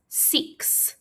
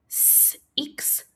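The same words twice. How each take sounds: First: Said in the usual way. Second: "S, X" as a held "sss", pause, then "iks"; sounded out. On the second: Shown as a demonstration. Teacher asking pupils to listen, six broken into s and iks. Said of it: "take turns listening and helping".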